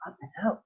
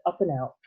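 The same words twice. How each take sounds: First: "Up and out" with a wondering rise on "out"; puzzled question. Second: Said in the usual way. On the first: Acted. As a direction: ask "Up and out" to yourself, rising at the end. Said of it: "thought Charlie". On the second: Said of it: "It said".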